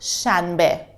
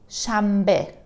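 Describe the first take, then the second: First: An n sound comes before the b. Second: An m sound comes before the b. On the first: This is how it is written. The speaker calls it wrong. "I pronounce it shanbe" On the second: This is how people really say it. The speaker calls it right. "we say shambe"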